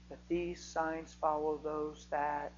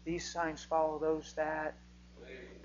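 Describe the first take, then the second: First: Each word drawn out, deliberately slow; slow emphatic repetition. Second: "These signs follow" spaced out slowly; slow emphatic repetition. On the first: Preacher drilling the verse into the congregation, slow and deliberate. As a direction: drill it into them slowly. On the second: Preacher repeating the verse so it sinks in, slow and weighty. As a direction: lay each word down slow and firm. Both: Shown as a demonstration. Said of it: "I might say that twenty times tonight".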